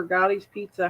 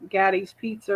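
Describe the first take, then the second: First: "Gotti's" with an open AH, as in "father"; "Gotti's" with the vowel of "hot"; Gotti's pronunciation. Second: "Gaddy's" with a short A, as in "daddy"; "Gaddy's" with the vowel of "cat"; Gaddy's pronunciation. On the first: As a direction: say "Gotti's" as GAH-deez. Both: Shown as a demonstration. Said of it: "however it's pronounced".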